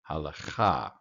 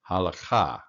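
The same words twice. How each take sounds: First: A short vowel is heard between the l and ch. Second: A short vowel is heard between the l and ch.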